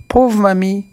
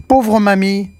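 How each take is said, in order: First: Put-on high, pitying childlike exclamation; child's cry. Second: Put-on high, bright childlike exclamation of pity; child's cry. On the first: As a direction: cry out again for the fallen witch. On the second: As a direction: cry out with pity for the old lady. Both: A narrator's reading. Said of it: "Petit Pierre s'écrie".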